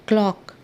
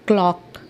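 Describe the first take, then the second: The two takes are said the same way.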